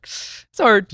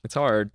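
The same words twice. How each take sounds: First: It's hard wailed much higher and louder; high mock lament. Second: Said in the usual way. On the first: Shown as a demonstration. Echoing the host, wailing it's hard in a high mock voice.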